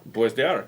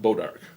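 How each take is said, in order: First: It is said as French-style "bwah dark". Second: It is said as "bodark". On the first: This is how the spelling suggests it is said. "if it was spelt Bois d'Arc, how would you pronounce that?" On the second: This is how the locals say it. "They pronounce it Bodark"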